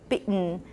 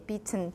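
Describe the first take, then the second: First: The middle consonant is a glottal stop. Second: The middle consonant is a clear T sound. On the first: "you want to mimic the American accent, you do bitten" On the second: "most English speakers will probably, in Taiwan, will probably just say bitten, according to the I P A"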